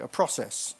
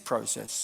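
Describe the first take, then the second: First: It has the listeners' American-style first vowel. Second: It has the speaker's British-style first vowel. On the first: This is how the audience says it. The speaker calls it wrong. "or as you guys tend to call it" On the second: This is how the speaker's side says it. The speaker calls it right. "But it is process"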